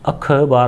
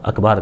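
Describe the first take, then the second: First: The word is said carefully, every sound articulated. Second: The word is said carelessly, with sounds swallowed. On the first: The speaker calls it right. "अखबार होता है" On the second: The speaker calls it wrong. "अखबार गलत है भाई"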